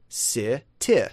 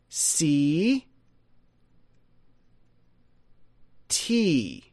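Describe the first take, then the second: First: Both vowels are short I sounds. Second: Both vowels are long E sounds. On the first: "short I, T, short I" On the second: "double E long, double E long"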